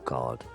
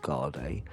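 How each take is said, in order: First: The final E is silent, one syllable. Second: The final E is sounded as a syllable.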